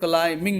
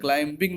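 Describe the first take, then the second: First: The b sound is silent before -ing. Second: The b sound is pronounced before -ing. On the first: The speaker calls it right. "क्लाइमिंग होगा" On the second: The speaker calls it wrong. "क्लाइंबिंग नहीं होगा"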